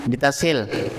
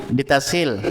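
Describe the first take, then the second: Both takes have the same delivery.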